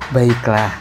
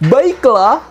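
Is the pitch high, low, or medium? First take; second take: low; high. First: It is said at a low pitch. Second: It is said at a high pitch. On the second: "Coba tinggi"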